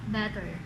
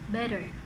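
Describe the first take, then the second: First: The middle consonant is a clear t sound. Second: The middle consonant sounds like a d.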